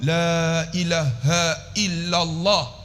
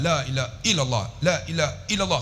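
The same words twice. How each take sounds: First: "la ilaha illallah" very slow, each long vowel held; unhurried teaching demo of "la ilaha illallah" with full lengths; careful, proper recitation. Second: "la ilaha illallah" rattled through with short vowels; hurried, softer chant-like repeat of "la ilaha illallah"; careless common recitation. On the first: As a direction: draw out "la" and measure out "ilaha illallah". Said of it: "Sebut elok". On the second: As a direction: rush "la ilaha illallah", not holding the "la". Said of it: "Banyak kita". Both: Shown as a demonstration.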